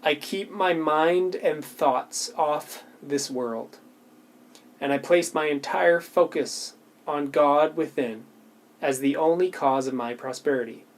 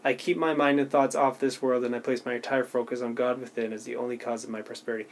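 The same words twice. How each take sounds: First: Slow, deliberate affirmation reading. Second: Fast, softer run-through of the sentence; quick reread. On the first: Reading her affirmation slowly to viewers, deliberate and unhurried. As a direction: reads each word slowly, letting it land. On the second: Showing viewers how she rereads it, quick and offhand. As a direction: rattle off the familiar line. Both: Shown as a demonstration. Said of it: "I would just reread, like, one sentence".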